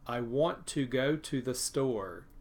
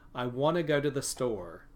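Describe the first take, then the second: First: Want to and go to are fully pronounced. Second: Want to and go to are reduced.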